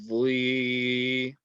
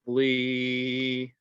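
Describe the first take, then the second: Both takes have the same delivery.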